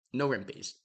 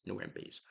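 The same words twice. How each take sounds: First: Said in the usual way. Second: Quiet repeat. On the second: Real, not acted. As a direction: drop to a near-murmur aside. Repeats his jab, much softer.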